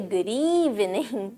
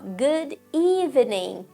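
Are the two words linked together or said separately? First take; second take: linked; separately. First: The two words run together, shortened. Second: The two words are said separately and fully.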